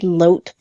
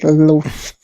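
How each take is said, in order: First: The name ends with a t sound. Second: The name ends with an f sound. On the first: This is how the spelling led one to expect it. "I expected loat" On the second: This is how the game actually says it. "it was definitely loaf"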